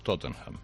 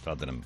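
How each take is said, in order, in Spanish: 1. Se dice con acento norteamericano. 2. Se dice con acento británico de Londres. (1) "un norteamericano te diría seguro Tottenham" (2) "en Londres te dirían Tottenham"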